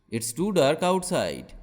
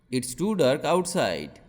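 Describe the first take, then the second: No difference in how they are said.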